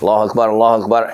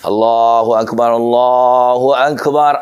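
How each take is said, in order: First: It is said quickly. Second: It is drawn out slowly.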